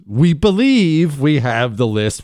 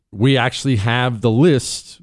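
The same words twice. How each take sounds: First: Slow, with "believe" leaned on as a hedge; slow down and stress "believe" to qualify it. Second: Said in the usual way. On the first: Shown as a demonstration. Host hedging about having the list, stressing "believe". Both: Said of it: "put all those qualifiers out there".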